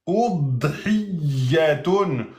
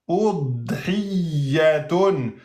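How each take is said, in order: The two takes are said the same way.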